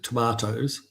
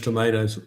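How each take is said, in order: First: Tomatoes is said in a New Zealand accent. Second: Tomatoes is said in an American accent.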